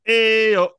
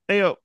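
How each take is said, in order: First: It is said with more energy. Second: It is said with ordinary, low energy.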